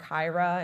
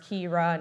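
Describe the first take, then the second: First: "Kyra" said KY-ra, rhyming with Myra; wrong name pronunciation. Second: "Kira" said KEE-ra; correct name pronunciation. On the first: Host showing audience the mistaken name, "Kyra" as KY-ra. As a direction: say "Kyra" with a long i, as in eye. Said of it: "My name is pronounced Kira, not Kyra". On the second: Host telling audience how to say her name, "Kira" as KEE-ra. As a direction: say "Kira" with an ee in the first syllable. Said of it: "My name is pronounced Kira". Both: Shown as a demonstration.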